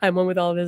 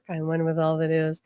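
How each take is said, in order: First: It is mumbled quickly without feeling. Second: It is said slowly and thoughtfully. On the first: The words are said without meaning them. The speaker calls it wrong. "don't just go no mumble mumble the affirmation" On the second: The words are truly felt. The speaker calls it right. "I was saying it very thoughtfully"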